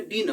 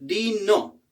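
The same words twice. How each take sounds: First: "डिनर" cut short to "din"; clipped word. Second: Said in the usual way. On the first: Shown as a demonstration. Teacher showing students the clipped spoken form, quick "din". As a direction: drop the ending of "डिनर", just "din". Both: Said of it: "डिनर भी पूरा नहीं बोलते".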